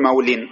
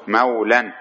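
First: مول said mawlin, ending in -in; مول with an i-vowel and n at the end; wrong -in ending. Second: مولا said mawlan, ending in -an; مولا with an a-vowel and n at the end; correct -an ending. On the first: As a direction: say مول with kasra tanween, "maw-lin". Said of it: "ما تقول مول". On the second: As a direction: say مولا with fatha tanween, "maw-lan". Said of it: "لا، إنما تقول إيش؟". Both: Shown as a demonstration.

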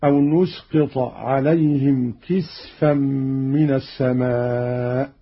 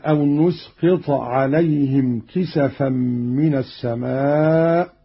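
First: كسفا with a vowelless سين; Qalun's silent seen. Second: كسفا with a fatha on the سين; standard reading. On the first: Teacher shows Qalun's reading, كسفا as kisfan. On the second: Teacher quotes the verse before Qalun's variant, كسفا as kisafan. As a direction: say كسفا as kisafan, three open syllables. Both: Shown as a demonstration. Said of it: "قرأ قالون بسكون السين هكذا".

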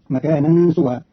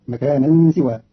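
First: Said in the usual way. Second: "سوى" said siwa, i after the s; kasra on the seen. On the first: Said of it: "قرأ قالون كلمة سوى". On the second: Shown as a demonstration. Teacher showing Qalun's reading, "سوى" pronounced siwa. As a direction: begin "سوى" with si instead of su. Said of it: "بكسر السين".

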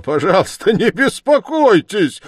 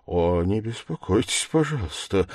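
First: High, loud outburst; crying out wildly. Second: Said in the usual way. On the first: A narrator's reading. Suspect bursting out at the investigator's concern, wild cry. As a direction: exclaim it wildly, pitch shooting up. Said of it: "вскричал Раскольников и вдруг захохотал". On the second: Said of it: "вскричал Раскольников".

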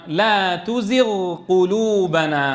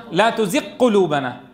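First: Slow "لا تزغ قلوبنا", gh held, then separate q; clear unmerged ghayn. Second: Fuse "تزغ" into "قلوبنا" with doubled q; merged ghayn. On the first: Teacher correcting the merging, slow and distinct. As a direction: sustain the غ of "تزغ" apart from "قلوبنا". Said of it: "فلا يدغمان". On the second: Teacher showing the wrong merging, gh turned to q. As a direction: say "لا تزغ قلوبنا" as tuziqqulubana, gh lost in q. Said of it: "مين بيدغم لي إياهم؟". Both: Shown as a demonstration.

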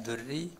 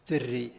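First: دري with u after the d, as durri; first valid reading. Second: دري with i after the d, as dirri; second valid reading. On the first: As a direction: round the first vowel of دري to u. (دري بضم الدال) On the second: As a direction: spread the first vowel of دري to i. (دري بكسر الدال) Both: Shown as a demonstration. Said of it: "أن في قراءتان صحيحتان".

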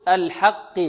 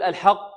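First: "الحق" with a thin vowel into a lighter qaf; lightly heavy qaf. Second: "الحق" with a dark, rounded vowel into qaf; overly heavy qaf. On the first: Teacher corrects students, lighter qaf in "الحق". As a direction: keep "الحق" clear before the merged qaf. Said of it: "بل نقول". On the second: Teacher mimics some students, over-heavy "الحق". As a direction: thicken the qaf in "الحق" too much. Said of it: "خطأ". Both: Shown as a demonstration.

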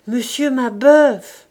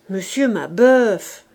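First: Put-on old woman calling louder, slowly; louder repeated call. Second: Put-on old woman calling. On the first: The old woman calls the silent old man louder. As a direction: call his name again, louder and drawn out. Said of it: "La vieille répéta". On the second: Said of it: "disait la vieille". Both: A narrator's reading.

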